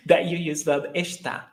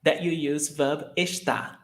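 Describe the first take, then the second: No difference in how they are said.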